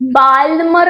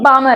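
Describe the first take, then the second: First: The L sound is pronounced in the name. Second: The L sound is left silent in the name. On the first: The speaker calls it wrong. "बाल्मर नहीं है" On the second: The speaker calls it right. "ये बामर है। बाल्मर एल silent है"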